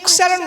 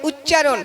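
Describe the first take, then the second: First: The word is pronounced in a distorted, nonstandard way. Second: The word is pronounced in the standard way. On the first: The speaker calls it wrong. "উচ্চারণ নয়" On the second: The speaker calls it right. "বলুন উচ্চারণ"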